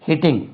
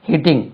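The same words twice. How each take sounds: The two takes are said the same way.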